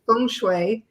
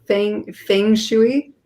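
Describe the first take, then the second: First: Feng shui said as fung shway, Mandarin-style vowels; Chinese pronunciation. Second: Feng shui said slowly as fæng fæng shoo-ee, unsure; careful feng shui. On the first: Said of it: "In my Chinese training". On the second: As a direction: sound out feng shui hesitantly, English vowels. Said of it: "so I can't say it". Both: Shown as a demonstration.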